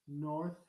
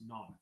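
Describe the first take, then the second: First: The vowel is rounded and fairly closed. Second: The vowel is opened toward an ah sound.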